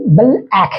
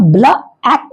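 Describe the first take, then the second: First: "बल आँख" as bl-ack, closing on the l; correct pronunciation. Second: "ब्ला आँख" as bla-ack, open a after the l; wrong pronunciation. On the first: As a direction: hold the l in "बल", then "आँख" as ack. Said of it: "इसका सही उच्चारण". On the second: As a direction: add a stray vowel to "ब्ला" before "आँख". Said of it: "आप ब्ला आँख बोल रहे हैं". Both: Shown as a demonstration.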